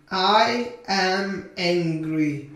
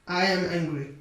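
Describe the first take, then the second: First: Very slow, drawn-out words; slow modelling. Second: Said in the usual way. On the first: Shown as a demonstration. Teacher models a sentence for English learners, very slowly. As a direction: stretch each word for learners.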